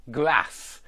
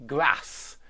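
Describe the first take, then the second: First: Grass with a short flat a as in cat; northern grass. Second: Grass with a long ah as in car; British grass. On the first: Teacher modelling the American and northern grass. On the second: Teacher modelling the southern British grass. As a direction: draw out the ah in grass. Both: Shown as a demonstration. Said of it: "I've put grass twice".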